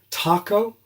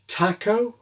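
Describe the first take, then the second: First: It is said in an American accent. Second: It is said in an English accent. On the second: "English style"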